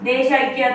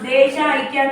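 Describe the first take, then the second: First: The two words are merged into one. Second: The two words are said separately. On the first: The speaker calls it right. "అని అంటున్నాం" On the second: The speaker calls it wrong. "అని అనకుండా"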